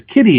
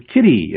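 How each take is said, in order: First: Put-on high, eager child's kitty; child's mistaken kitty. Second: Said in the usual way. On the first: Toddler mislabels a puppy, eager squeal. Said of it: "sees a puppy and says". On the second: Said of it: "sees another cat and says".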